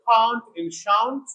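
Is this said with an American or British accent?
British. It is said with a British accent.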